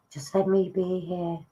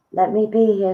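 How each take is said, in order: First: Said in the usual way. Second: Higher, louder channelled voice; a spirit taking over the medium's voice; spirit speaking through. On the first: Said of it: "Now, that's not me, that's spirit". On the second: Acted. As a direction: let the spirit speak through you, lifting up. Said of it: "that's not me, that's spirit".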